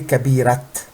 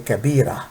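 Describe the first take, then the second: First: The word ends with a t sound. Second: The word ends with a vowel. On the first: The speaker calls it wrong. "we don't say kabirat" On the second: The speaker calls it right. "We say kabira"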